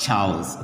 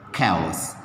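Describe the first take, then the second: First: The word begins with a ch sound. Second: The word begins with a k sound. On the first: The speaker calls it wrong. "This is not pronounced as chows" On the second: The speaker calls it right. "this is pronounced as cows. K"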